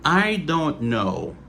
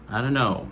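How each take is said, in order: First: The phrase is pronounced fully and carefully. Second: The phrase is pronounced in a reduced form. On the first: "Ça c'est prononciation normale" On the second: "Dans le langage parlé, qui ça natif yo dit"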